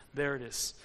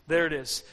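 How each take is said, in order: First: Low and soft, like a secret found; hushed reveal. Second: Said in the usual way. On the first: Acted. Preacher revealing God's gentle whisper, low and soft. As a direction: breathe it out quietly.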